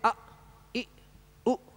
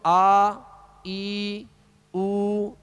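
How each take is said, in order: First: The vowels are cut off with a jerk. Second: The vowels are stretched out long. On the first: "झटका भी नहीं देंगे" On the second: "इस तरह नहीं करेंगे, ये दराज हो जाएगी"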